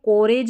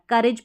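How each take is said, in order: First: The first vowel sounds like o in go. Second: The first vowel sounds like u in cut. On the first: The speaker calls it wrong. "इसको कोरेज नहीं पढ़ना" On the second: The speaker calls it right. "करेज पढ़ना है"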